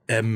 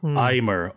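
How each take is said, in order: First: The name is said like French 'aime'. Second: The name is said with an American-style vowel. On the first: The speaker calls it right. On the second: The speaker calls it wrong.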